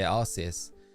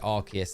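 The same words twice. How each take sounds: First: The c is said as a soft s sound. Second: The c is said as a hard k sound. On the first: The speaker calls it wrong. "if you pronounced it how I would have pronounced it, it would be the Arse phone" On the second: The speaker calls it right. "and I said Arceus, and I was right with it"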